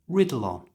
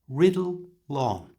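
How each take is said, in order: First: The phrase is said at normal conversational speed. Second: The phrase is said slowly and drawn out. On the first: "And at normal speed" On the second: "So slowly it sounds like this"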